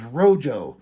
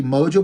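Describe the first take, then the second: First: "Rojo" with an R replacing the M; "Rojo" for "Mojo", first sound swapped; R in place of M. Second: Said in the usual way. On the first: Shown as a demonstration. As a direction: start "Rojo" on R, like a talking dog. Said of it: "but he says Rojo". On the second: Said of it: "Beast tries to say Mojo".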